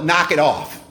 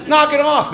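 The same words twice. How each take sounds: First: Said in the usual way. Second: Higher and louder, a firm command; loud, emphatic. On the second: Shown as a demonstration. Naming the AA program with a punchy command. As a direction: bark it like an order. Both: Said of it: "We call it Knock It Off".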